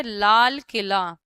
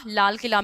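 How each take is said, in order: First: लाल Qila drawn out slowly, each sound held apart. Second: Said in the usual way. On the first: Shown as a demonstration. Teacher sounding out a word for students, slowly syllable by syllable. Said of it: "आ आएगा, ठीक है". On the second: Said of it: "ल, आ".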